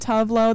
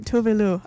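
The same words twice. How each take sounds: First: The name is said with an American pronunciation. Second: The name is said with a Swedish pronunciation. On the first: This is how it was long assumed to be said. The speaker calls it wrong. "That's how I thought it was pronounced for a while" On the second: This is the technically correct native form. The speaker calls it right. "So it is technically Tuve Lo"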